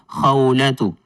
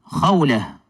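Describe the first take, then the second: First: The name ends with a t and vowel. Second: The name ends with a soft h sound. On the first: "Kung lalagyan natin ng patinig sa dulo" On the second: "Kung hindi po natin bibigkasin yung ta'ul marbuta na may dhamma, magiging ha po ang kanyang tunog"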